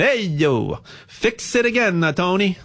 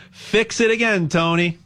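First: Playful Italian accent. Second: Said in the usual way. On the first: Shown as a demonstration. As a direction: say it like an Italian guy from the neighborhood. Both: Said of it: "I'll say it with an Italian accent".

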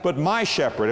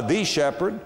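First: "my" leaned on, falling away on "shepherd"; stress on MY. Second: "the" said as "thee", lightly leaned on; stress on THE. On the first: Preacher making it personal, stress on "my". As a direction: land on "my" as the correct word. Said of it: "about that little word". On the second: Preacher contrasting words, stress on "the". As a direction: set up "the" as the word to reject. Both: Shown as a demonstration.

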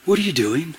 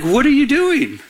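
First: Understated voice of God; retold quiet challenge from God; clear divine question. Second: Higher-pitched retold challenge from God; pointed, raised-pitch questioning; challenging question. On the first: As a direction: ask it plainly, a little softly. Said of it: "God spoke very clearly". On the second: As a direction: call him out with the question. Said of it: "So he was like".

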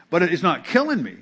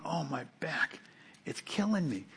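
First: Said in the usual way. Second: Soft, whiny mock moan about a sore back; mock complaining. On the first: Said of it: "It hurts". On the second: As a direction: play the exaggerating sufferer, much softer. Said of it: "This isn't like me going".

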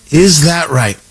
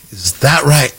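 First: Louder sarcastic repeat. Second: Dry, mocking disbelief; sarcastic doubt. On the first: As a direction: punch the doubt, louder. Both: Shown as a demonstration.

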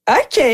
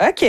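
First: A startled, higher and louder ok; the third ok, bracing herself, louder and higher. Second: Said in the usual way. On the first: Retold or imitated. Comedian answering the spa lady who says it's mixed, with a louder, higher ok.

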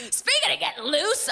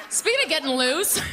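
First: Giggling. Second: Laughing. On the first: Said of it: "repeats higher". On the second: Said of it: "repeats with laugh". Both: Real, not acted.

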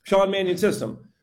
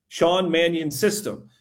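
First: "Sean Mannion system" said higher and a little quicker; quicker tongue twister. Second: Slow, deliberate "Sean Mannion system"; careful tongue twister. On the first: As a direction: run "Sean Mannion system" together in one go. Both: Shown as a demonstration. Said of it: "Say that ten times fast".

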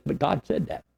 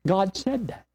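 First: God punched, falling on that; stress on God. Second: Said lifted high and hit; stress on said. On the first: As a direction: lean hard on God, then drop. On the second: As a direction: push the word said up, let that drop. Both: Acted.

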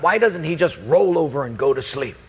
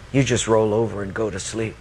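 First: Mildly exasperated muttered complaint; lightly acted grumble; grumbling to God. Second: Low, even, gentle reproof; measured, lowered voice of God; God speaking. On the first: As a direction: grumble a complaint about someone who won't settle. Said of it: "I just mumble to God". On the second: Acted. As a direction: turn the complaint back in a low, calm voice. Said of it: "then God spoke to me".

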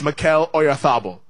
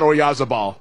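First: Mikel Oyarzabal the Castilian way, z as th. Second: Oyarzabal as British announcers call it, z buzzed. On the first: Shown as a demonstration. Host corrects announcers, Mikel Oyarzabal with Castilian th. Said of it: "is his name". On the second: Retold or imitated. Host quotes British announcers' error, Oyarzabal with a z. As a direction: Anglicize Oyarzabal with a hard z. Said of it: "as our friendly British announcers".

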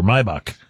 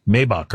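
First: Maybach, opening vowel as in "eye"; Maybach as MY-bock. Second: Maybach, opening vowel as in "day"; Maybach as MAY-bock. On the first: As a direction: say Maybach with a first syllable like "my". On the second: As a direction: say Maybach with a first syllable like "may". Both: Shown as a demonstration. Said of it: "do you pronounce it Maybach or Maybach".

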